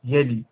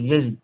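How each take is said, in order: Both takes have the same delivery.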